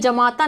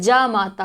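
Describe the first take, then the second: First: The first vowel is short. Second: The first vowel is long. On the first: The speaker calls it wrong. "ये जमाता नहीं होता" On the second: The speaker calls it right. "बड़ा जा"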